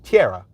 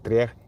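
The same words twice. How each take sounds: First: It is said with an English accent. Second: It is said with a Spanish accent. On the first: "Like how it's spelled in English" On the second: "with a Spanish accent"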